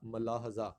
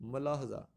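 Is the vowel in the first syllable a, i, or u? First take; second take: a; a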